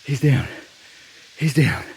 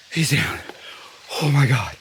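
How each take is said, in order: First: Excited. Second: Breathless whisper, voice barely there; real stunned whisper after the shot; excited whisper. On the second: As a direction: whisper it in shock. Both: Real, not acted. Hunter just shot a buck.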